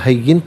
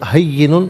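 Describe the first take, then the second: First: The word ends on 'in' with no extra syllable. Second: The word ends with an added 'un' syllable. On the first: The reader pauses here. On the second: The reading continues without stopping.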